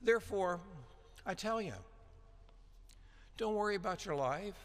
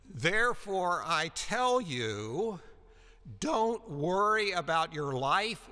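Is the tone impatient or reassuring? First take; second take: reassuring; impatient. First: It is said in a gentle, reassuring tone. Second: It is said in an impatient, scolding tone. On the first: You need not worry; you are being cared for. "because I've got it. I've got you. So rather than a demand" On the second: Stop worrying; it is a demand. "you twit, ... get on with it"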